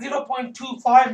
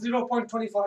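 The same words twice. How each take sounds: First: The digits after the point are read separately. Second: The digits after the point are read as one number. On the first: The speaker calls it right. "all the number digits must be read individually" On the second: The speaker calls it wrong. "That's wrong"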